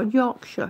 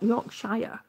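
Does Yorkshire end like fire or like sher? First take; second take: sher; fire. First: The ending is reduced to a short sher. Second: The ending is a full shire, rhyming with fire. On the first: The speaker calls it right. "or Yorkshire, it's Shire" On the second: The speaker calls it wrong. "it's not Yorkshire"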